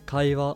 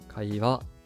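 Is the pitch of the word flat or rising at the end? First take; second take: flat; rising. First: The pitch stays level across the whole word. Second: The pitch stays low, then rises on the last mora. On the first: This is the standard Japanese way. "in standard Japanese, you you would hear kaiwa completely flat" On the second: This is the Kansai dialect way. "in Kansai Ben you would hear kaiwa"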